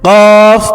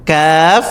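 First: কফ as loud, rounded QAWF; heavy qaf. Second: কাফ with a plain thin k; unforced KAAF with open a; light kaf. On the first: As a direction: hit কফ hard from the back tongue. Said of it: "আর এই হরফটি হচ্ছে". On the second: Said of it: "এটা হচ্ছে". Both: Shown as a demonstration.

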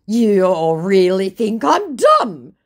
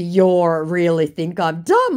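First: Loud, slow, higher-pitched protest; mock offended scammer. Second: Said in the usual way. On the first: Scammer objecting to her insults, mock offended. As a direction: whine it in hammed-up offence. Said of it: "he says".

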